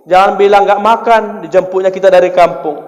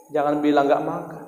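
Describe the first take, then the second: First: Emphatic warning. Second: Softer aside repeat of Jangan bilang nggak makan; hushed restatement; quiet repeat. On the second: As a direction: say it again softly to yourself. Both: Shown as a demonstration. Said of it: "bohong demi kebaikan".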